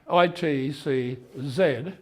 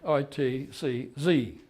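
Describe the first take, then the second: First: The letters are said the non-American way. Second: The letters are said the American way.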